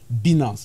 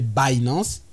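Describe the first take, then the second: First: The name is said with French pronunciation. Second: The name is said with English pronunciation. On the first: "En francophone, on l'appelle Binance" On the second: "En anglais, les anglophones les appellent Binance"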